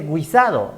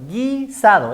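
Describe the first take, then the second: First: The u after the g is pronounced. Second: The u after the g is silent. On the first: The speaker calls it wrong. "No se dice guisado" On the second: The speaker calls it right. "Porque la U no suena"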